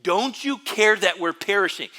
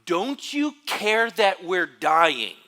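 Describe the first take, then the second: First: Loud, high desperate plea; dramatic cry. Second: Loud, high, slow desperate cry; dramatic cry. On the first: Preacher voicing disciples waking Jesus in the storm, loud and pleading. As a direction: wail it like you're going under. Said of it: "Very, very dramatic". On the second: Disciples crying out to sleeping Jesus, loud and desperate. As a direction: cry out like a sailor sure he'll drown. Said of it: "with this cry". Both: Retold or imitated.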